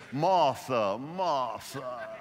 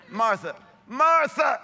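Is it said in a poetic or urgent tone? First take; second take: poetic; urgent. First: It is said in a soft, poetic way. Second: It is called out urgently, like scolding kids.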